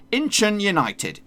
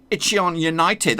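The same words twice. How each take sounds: First: Higher, slow "Incheon United" as "IN-chun United"; supposed pronunciation. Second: Slow "Icheon United" as "itchy-on United"; usual mispronunciation. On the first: Host breaking it down for viewers, careful "Incheon United" with both n sounds. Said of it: "this is how you're supposed to say it". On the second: Host admitting his old habit, mispronounced "Icheon United" without the first n. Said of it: "That's how I would say it normally". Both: Shown as a demonstration.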